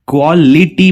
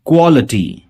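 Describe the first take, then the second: First: क्वालिटी with a full ई before टी; the mistaken क्वालिटी, ली fully sounded; wrong take. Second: क्वालिटी ending in a reduced अटी; क्वालिटी with the ी swallowed; right take. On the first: Teacher imitating common mispronunciation, mock wrong. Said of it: "लेकिन ये ईटी नहीं". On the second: Teacher giving students the correct form, model. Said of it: "ये अटी से pronounce होगा". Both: Shown as a demonstration.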